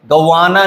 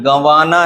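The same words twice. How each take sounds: First: गंवाना without the nasal, a plain ga-waa-naa; wrong pronunciation. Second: गंवाना with a nasalised first vowel, gan-waa-naa; correct pronunciation. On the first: Teacher showing students the mistake, गंवाना said un-nasalised. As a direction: say गंवाना with no nasal on the first syllable. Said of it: "नहीं है". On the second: Teacher explaining the chandrabindu, गंवाना said with nasal first syllable. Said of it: "गंवाना है". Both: Shown as a demonstration.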